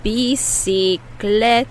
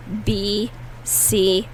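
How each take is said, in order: First: "Bicicleta" slow, first c as s, second as k; slow careful model. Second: "Bicicleta" slow, syllable by syllable; slow repeat for practice. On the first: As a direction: stretch "Bicicleta" slowly, bi-ci-cle-ta. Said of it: "The first C is pronounced like an S". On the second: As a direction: model "Bicicleta" slowly to repeat. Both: Shown as a demonstration.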